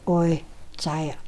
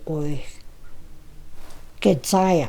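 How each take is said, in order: First: The second word has no extra 'ged' syllable. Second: The second word has an extra 'ged' syllable. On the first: The speaker calls it right. "Eliza corrected me and said it's" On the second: The speaker calls it wrong. "that's how I was saying it"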